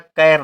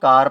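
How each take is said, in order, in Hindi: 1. स्वर एक आगे का 'a' है, जैसे 'cat' में। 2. स्वर एक खुली 'ah' ध्वनि है। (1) "कैर नहीं पढ़ा जाएगा" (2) "कार पढ़ा जाएगा"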